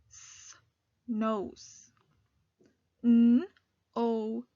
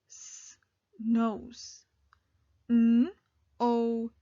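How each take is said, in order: Both takes have the same delivery.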